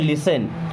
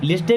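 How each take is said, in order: First: The t sound is left silent. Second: The t sound is clearly pronounced. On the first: The speaker calls it right. "टी silent होता" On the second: The speaker calls it wrong. "लिस्टन नहीं होता यहाँ पे"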